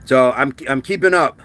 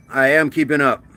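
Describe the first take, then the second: First: Said in the usual way. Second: "am" spelled out in full and pressed; stress on am. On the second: Shown as a demonstration. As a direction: insist with "I am keeping up".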